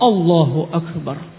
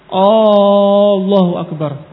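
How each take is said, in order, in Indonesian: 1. Awalnya langsung diucapkan tanpa tambahan vokal. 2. Ditambahkan vokal panjang ekstra di awal. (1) "Langsung Allahu Akbar" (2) "Kalau dia menambah alif"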